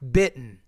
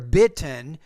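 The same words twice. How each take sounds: First: The T is replaced by a glottal stop. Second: The T is pronounced as a full T. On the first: The speaker calls it right. "we don't really pronounce that T" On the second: The speaker calls it wrong. "instead of saying"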